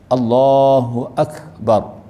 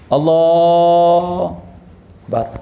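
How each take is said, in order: First: The syllable 'hu' after 'Allah' is pronounced. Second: The syllable 'hu' after 'Allah' is dropped. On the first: The speaker calls it right. "Dia kena ada hu" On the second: The speaker calls it wrong. "Hu tu hilang"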